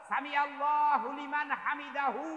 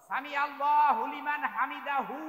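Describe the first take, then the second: The two takes are said the same way.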